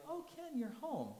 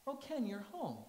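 First: High sing-song fake surprise; mock surprise. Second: Lighter replay of mom's fake surprise; mom's mock surprise, toned down. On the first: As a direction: act startled to see him. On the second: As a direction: greet him as if unexpected. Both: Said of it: "she would act surprised".

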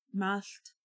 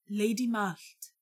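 First: Softer, hurt repetition of the name; quiet wounded echo. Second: A hint of a grave otherworld lord; slow and solemn, naming her. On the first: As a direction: repeat the name softly, stung. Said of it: "she repeated". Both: A narrator's reading.

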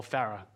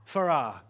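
First: "Farah" with stress on the first syllable, FA-ruh; alternative regional pronunciation. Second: "Farah" with stress on the second syllable, fuh-RAH; regional pronunciation. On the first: Preacher reading a seller's suburb both local ways, "Farah" as FA-ruh. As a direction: say "Farah" as FA-ruh, short weak ending. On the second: Preacher reading a seller's suburb both local ways, "Farah" as fuh-RAH. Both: Shown as a demonstration. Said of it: "depending on where you live".

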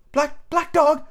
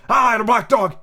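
First: Put-on much higher boy's voice, wary; a boy half afraid to say it; high lad's voice asking; young Jim asking. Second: Put-on raised, heavier old seaman's voice; a grim old sailor agreeing; rough old pirate voice; old captain confirming.

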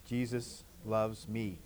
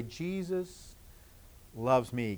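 First: Very soft and slow; hushed, slow and gentle; soft whisper. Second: Hushed, barely voiced; soft demo whisper for the children. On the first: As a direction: breathe it out quietly. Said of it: "Can you say that?". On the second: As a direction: whisper it gently to yourself. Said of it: "maybe in a whisper out loud to say". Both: Shown as a demonstration.

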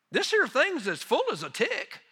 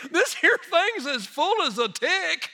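First: Rural Tennessee man. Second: Slow, high Tennessee country drawl; rural Tennessee man. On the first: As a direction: quote him in a country Tennessee accent. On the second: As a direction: stretch out the imitated Tennessee twang for laughs. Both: Retold or imitated. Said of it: "exact quote of what he said".

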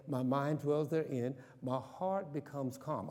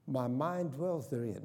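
First: Slow, settling self-talk; calm affirmation. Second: Slow, sincere self-talk affirmation. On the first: Pastor calming himself with an affirmation, slow. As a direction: say it to calm your own heart. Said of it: "I'm not getting all emotional". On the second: Pastor modelling self-talk, slow and sincere. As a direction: recite it like a calming creed. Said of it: "self-talk". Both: Shown as a demonstration.

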